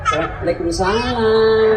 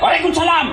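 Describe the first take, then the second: First: The voice is soft, sweet and sultry. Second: The voice is blunt, hard and unsweetened. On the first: It tempts the caller. The speaker calls it wrong. "jangan kau pakai suara sahdu" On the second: It puts the caller off. The speaker calls it right. "tunjukkan kau orang Bugis"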